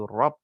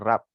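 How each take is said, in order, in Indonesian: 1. Bunyi R berat dan tebal. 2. Bunyi R ringan dan tipis. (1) "dibaca tebal"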